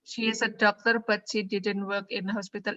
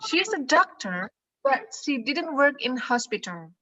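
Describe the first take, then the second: First: The pitch stays flat like a robot. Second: The pitch moves up and down expressively. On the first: The speaker calls it wrong. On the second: The speaker calls it right.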